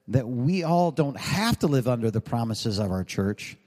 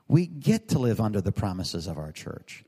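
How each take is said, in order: First: "have" leaned on as the word being rejected; stress on HAVE. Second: "get" set apart as the corrected word, in a lower voice; stress on GET. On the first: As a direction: lean on "have" to set up the contrast. Contrasts "have to" with "get to. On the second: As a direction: lean on "get" to answer the contrast. Contrasts "get to" with "have to. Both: Shown as a demonstration.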